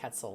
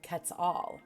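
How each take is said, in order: First: The word is said rhyming with pretzel. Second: The word is said not rhyming with pretzel. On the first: The speaker calls it wrong. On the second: The speaker calls it right.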